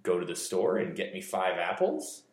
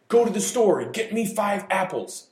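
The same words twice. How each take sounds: First: Apples rising as a doubtful question; unsure question. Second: High, loud, excited command; shouted out high and eager; excited exclamation. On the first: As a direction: sound unsure of the number. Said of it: "makes the speaker sound unsure". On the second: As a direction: sound thrilled about the apples. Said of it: "This sounds like the speaker is very excited". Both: Shown as a demonstration.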